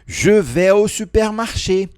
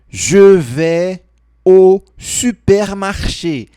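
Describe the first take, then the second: First: It is spoken at a normal speed. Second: It is spoken more slowly.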